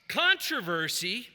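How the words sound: The word is said the American way. "is the American way of pronouncing that word"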